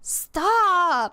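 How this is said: It is said in a mismatched character voice.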